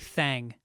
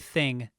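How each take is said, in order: First: The vowel is a drawled 'a' sound. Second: The vowel is the short 'i' sound. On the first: The speaker calls it right. "I say thang" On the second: The speaker calls it wrong. "I don't say thing"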